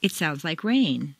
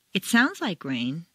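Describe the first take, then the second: First: Rain as new information; "rain" stressed and falling. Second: Sounds stressed and rising; doubtful, stress sounds; "sounds" stressed with a rise; opinion tune. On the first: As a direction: land on rain. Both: Shown as a demonstration.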